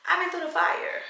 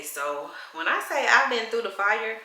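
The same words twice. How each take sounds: First: Much higher, dramatic echo; high emphatic repeat. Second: Said in the usual way. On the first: Real, not acted.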